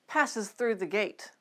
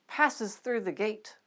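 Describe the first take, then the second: Both takes have the same delivery.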